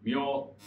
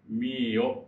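First: It is squeezed into one syllable, myo. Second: It is said as two syllables, mi-o. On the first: The speaker calls it wrong. "みょというような発音をする人もいます" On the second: The speaker calls it right. "みーよというふうに入らなきゃいけない"

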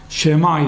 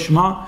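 First: A short vowel follows the first consonant. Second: The first consonant has no vowel after it. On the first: The speaker calls it right. "כי בתחילת מילה זה שוונה" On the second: The speaker calls it wrong. "לא שמע"

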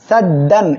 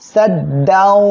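First: The final n is pronounced clearly and separately. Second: The final n merges nasally into the next sound. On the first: The speaker calls it wrong. "এটা বললে কিন্তু ভুল হবে" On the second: The speaker calls it right. "গুন্নার সাথে মিলে পড়তে হবে"

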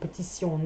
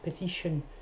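First: The middle consonant is an 's' sound. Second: The middle consonant is a 'sh' sound. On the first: This is the French way of saying it. "in French, sion, with a s sound" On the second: This is the English way of saying it. "every word finishing with T-I-O-N-S in English are pronounced sh"

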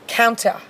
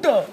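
First: It is said in an Australian accent. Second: It is said in a stereotyped Indian accent.

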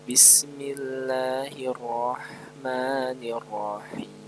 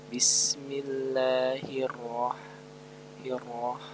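The two takes are said the same way.

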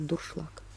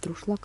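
First: The r comes after the u: dursh. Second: The r comes right after the d: drush. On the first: The speaker calls it right. "а дуршлаг" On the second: The speaker calls it wrong. "Не друшлаг"

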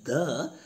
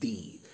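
First: It is said with a short 'thuh' vowel. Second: It is said with a long 'thee' vowel. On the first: It comes before a word starting with a consonant sound. "is pronounced as the when it is used with a word that begins with a consonant sound" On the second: It comes before a word starting with a vowel sound. "when it is used before a word that begins with a vowel sound, that should be pronounced as the"

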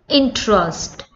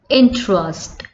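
The two takes are said the same way.

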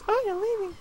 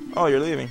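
First: It is said in a put-on girl voice. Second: It is said in his normal voice.

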